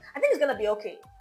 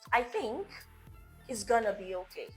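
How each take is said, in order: First: The sentence is spoken quickly and hurriedly. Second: The sentence is spoken slowly and calmly. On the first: The speaker sounds unsure. The speaker calls it wrong. "One sounds rushed, unsure" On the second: The speaker sounds confident. The speaker calls it right. "when you slow down, it sounds more confident"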